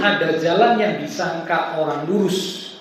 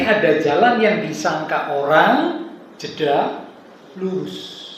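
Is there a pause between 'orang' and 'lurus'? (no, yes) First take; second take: no; yes. First: The words 'orang lurus' run together without pause. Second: There is a pause between 'orang' and 'lurus'. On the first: The upright one is the person. The speaker calls it wrong. "saya pernah dengar orang membaca begini" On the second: The upright thing is the road. The speaker calls it right.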